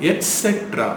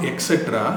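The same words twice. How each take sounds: First: Et cetera as et-SET-ra, high start; t sound. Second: Et cetera as ek-SET-ra; mispronounced etcetera. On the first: Teacher modelling the correction, t sound. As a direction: say et cetera with a clear t. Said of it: "டி sound தான் வரணும்". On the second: Teacher showing what to avoid, mispronounced. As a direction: say et cetera with an x sound. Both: Shown as a demonstration.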